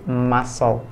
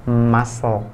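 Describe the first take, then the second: No difference in how they are said.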